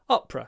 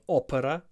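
First: The word is said with two syllables. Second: The word is said with three syllables. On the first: The speaker calls it right. "Two syllables" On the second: The speaker calls it wrong.

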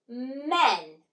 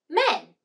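First: The word is stretched out slowly, sound by sound. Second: The word is said quickly, all at once. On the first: "Blend with me" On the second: "Now say it in a snap"

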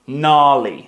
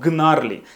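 First: The word begins with an n sound. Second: The word begins with a g sound. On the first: The speaker calls it right. "У нас не читається G" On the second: The speaker calls it wrong. "Не читаємо G, не кажемо gnarly"

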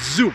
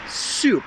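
First: The word begins with a buzzing z sound. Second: The word begins with a hissing s sound. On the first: The speaker calls it wrong. "I hear so many times zup" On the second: The speaker calls it right. "It's soup with an S"

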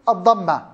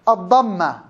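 No difference in how they are said.

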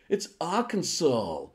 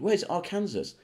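First: The word uses its local pronunciation. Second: The word is read out as it is spelled. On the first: The speaker calls it right. "It's Arkansas, you limey ass wipe" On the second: The speaker calls it wrong. "if I went to America and said"

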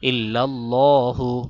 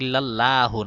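First: The l sound is thick and heavy. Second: The l sound is thin and light. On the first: The speaker calls it right. "ইল্লাল্লাহ মোটা করে" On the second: The speaker calls it wrong. "ইল্লাল্লাহু না"

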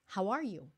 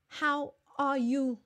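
First: The words are linked smoothly into one phrase. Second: Each word is said separately, one by one. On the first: The speaker calls it right. "push it together" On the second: The speaker calls it wrong. "we do not say"

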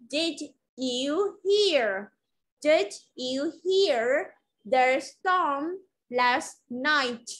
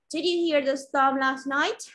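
First: The sentence is spoken slowly. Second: The sentence is spoken at normal speed.

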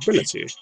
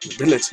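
First: It is said in a put-on British accent. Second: It is said in the speaker's regular accent.

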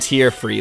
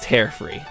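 First: The word tear rhymes with ear. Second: The word tear rhymes with air. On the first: Free of tears from the eyes. The speaker calls it wrong. "It wasn't tear free" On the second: Free of rips and split ends in hair. The speaker calls it right. "It meant tear, like your hair"

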